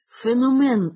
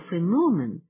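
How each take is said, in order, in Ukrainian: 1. Наголос падає на останній склад. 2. Наголос падає на другий склад. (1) "з наголосом у першому слові на останньому складі" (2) "треба наголошувати на другому складі"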